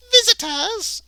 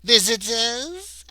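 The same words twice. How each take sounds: First: Very high, loud Irish maid exclamation. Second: High, slow questioning maid voice, louder; maid asking. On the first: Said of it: "And the maid's to be Irish". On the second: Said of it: "asked the woman". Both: Acted.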